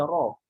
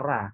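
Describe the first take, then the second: First: The r sound is heavy and thick. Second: The r sound is light and thin. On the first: The speaker calls it right. "mesti dibaca ro" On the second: The speaker calls it wrong. "kalau ra itu sudah masuk ke tipis"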